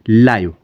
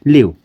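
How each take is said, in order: First: The vowel is a long 'eye' sound. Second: The vowel is a short 'ih' sound. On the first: To be alive. "इसको हम पढ़ेंगे लाइव" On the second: To reside somewhere. "लिव means रहना"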